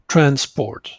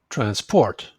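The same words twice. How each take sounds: First: The stress is on the first syllable. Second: The stress is on the second syllable. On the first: The word is a noun. "nouns are stressed on the first syllable. So you say it like transport" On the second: The word is a verb. "And verbs on the second syllable... You say it like this"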